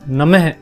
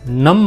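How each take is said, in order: First: The word ends with a breathy h sound. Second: The word ends without a breathy h sound. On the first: The speaker calls it right. "इसका सही उच्चारण होगा नमः" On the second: The speaker calls it wrong. "इसे आप नम मत पढ़ना"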